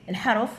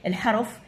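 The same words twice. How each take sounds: The two takes are said the same way.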